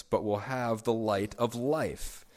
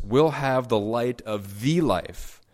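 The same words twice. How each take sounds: First: "life" given weight at the end of the line; stress on life. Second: "the life" weighed, slow; stress on the life. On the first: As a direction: lean on "life", slowly. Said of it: "I'm emphasizing the word life there". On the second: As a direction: linger on "the life". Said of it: "we could translate it like this". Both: Shown as a demonstration.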